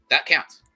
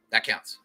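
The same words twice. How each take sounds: First: "That counts" with "That" punched high and loud; stress on that. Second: Said in the usual way. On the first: Real, not acted. Reassuring viewers about mailed letters, "That" stressed loud. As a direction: hammer "That" hard in "That counts". Repeats line with emphasis.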